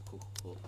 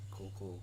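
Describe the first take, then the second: No difference in how they are said.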